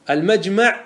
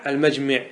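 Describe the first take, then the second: First: المجمع said "al-majma", with an a, pitched high; fatha form. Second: المجمع said "al-majmi", with an i; kasra form. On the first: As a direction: say المجمع with fatha on the second mim. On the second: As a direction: say المجمع with kasra on the second mim. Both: Shown as a demonstration. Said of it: "ما ورد بالوجهين".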